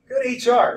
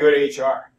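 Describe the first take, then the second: First: The phrase is said in a light, cheerful tone. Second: The phrase is said in a heavy, grim tone. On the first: The visit will be a pleasant experience. "I never say, "Hey" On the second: The visit will be an unpleasant ordeal. "It sounds like you are going to have a polyp looked at or something"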